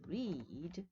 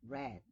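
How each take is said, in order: First: The vowel is long, rhyming with bead. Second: The vowel is short, rhyming with bed. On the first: It is the present form of the verb. "the verb to read" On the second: It is the past form of the verb. "in the past, it becomes read. The spelling is the same, but the pronunciation is read"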